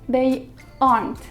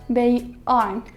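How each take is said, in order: No difference in how they are said.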